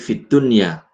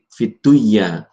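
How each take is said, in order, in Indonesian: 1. Bunyi n dibaca jelas. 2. Bunyi n melebur ke bunyi berikutnya. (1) "tapi fid dunya" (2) "bukan fid, fiduya"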